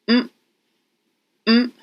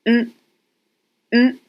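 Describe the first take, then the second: The two takes are said the same way.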